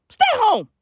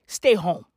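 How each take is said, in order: First: High, emphatic holler; sharply raised, insistent cry; yelled order. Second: Said in the usual way. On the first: Acted. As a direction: yell it like an urgent command. Repeats the order as a yell.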